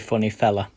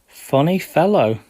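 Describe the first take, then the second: First: The last word ends in a reduced 'uh' sound. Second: The last word ends in a full 'oh' sound.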